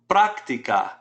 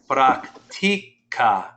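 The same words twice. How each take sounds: First: The stress is on the first syllable. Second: The stress is on the second syllable. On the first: It is the noun practice. "Practica has an accent mark over the A" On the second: He or she practices. "the natural stress is on the second to last syllable"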